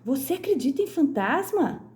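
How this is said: The voice sounds surprised, with exclamatory intonation. The speaker is surprised the other person believes. "está surpresa ao saber que a outra acredita em fantasma"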